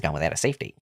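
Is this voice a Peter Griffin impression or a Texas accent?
Peter Griffin. It is spoken as a Peter Griffin impression. The speaker calls it right. "I'm trying to do Peter Griffin"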